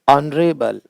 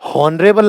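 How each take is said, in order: First: The word starts with a vowel sound. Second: The word starts with an h sound. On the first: The speaker calls it right. "एच का उच्चारण नहीं होता" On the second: The speaker calls it wrong. "नहीं"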